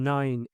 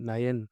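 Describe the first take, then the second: First: It is said in one syllable, like 'nine'. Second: It is said in two syllables, like 'na-yan'. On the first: The speaker calls it right. "இது நைன்" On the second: The speaker calls it wrong. "நிறைய பேர் வந்து தவறா சொல்ற ஒரு pronunciation"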